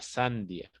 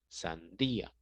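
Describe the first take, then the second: First: The i and a join in one syllable. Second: The i and a fall in separate syllables. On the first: The speaker calls it wrong. "si no diría sandia, y nosotros no decimos sandia" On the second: The speaker calls it right. "decimos sandía; separar la I con la A"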